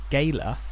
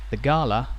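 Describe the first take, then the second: First: The word is said with the local pronunciation. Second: The word is said with the standard pronunciation.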